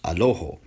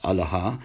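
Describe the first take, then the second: First: The word begins with a, then two o vowels. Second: All three vowels of the word are a. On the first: This is the Western Syriac pronunciation. "in Western Syriac, it's pronounced Aloho" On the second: This is the Eastern Syriac pronunciation. "in Eastern Syriac ... it's pronounced Alaha"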